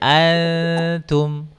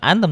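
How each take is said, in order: First: The n is hidden as a soft nasal hum. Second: The n is fully articulated with the tongue. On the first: The speaker calls it right. "tapi antum ... jadi samar dia non sukunnya" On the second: The speaker calls it wrong. "Kalau dimasukkan jadinya antum, bukan antum"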